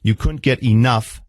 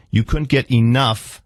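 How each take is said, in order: Both takes have the same delivery.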